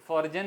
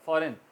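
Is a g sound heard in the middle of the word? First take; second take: sounded; silent. First: A g sound is pronounced in the middle. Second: No g sound is pronounced in the middle. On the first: The speaker calls it wrong. "फॉरजन नहीं कहा जाएगा" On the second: The speaker calls it right. "जी silent"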